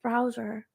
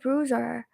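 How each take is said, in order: First: The first vowel sounds like 'ow'. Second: The first vowel sounds like 'oo'. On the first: The speaker calls it right. "instead of browser" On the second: The speaker calls it wrong. "I say bruiser instead of browser"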